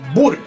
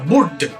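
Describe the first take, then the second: First: The word ends without any d sound. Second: The word ends with an audible d sound. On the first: The speaker calls it right. "se pronuncia bur. La D no se pronuncia en absoluto" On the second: The speaker calls it wrong. "esta palabra no se pronuncia burd"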